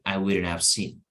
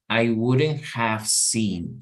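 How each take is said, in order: First: The h in have is dropped and reduced. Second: The h in have is fully pronounced. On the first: "you say" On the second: "instead of saying"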